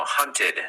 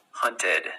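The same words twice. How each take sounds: First: "hunted" ending in a clear -ted. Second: "hunted" ending in a full -ted. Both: Shown as a demonstration. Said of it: "it'll be ted".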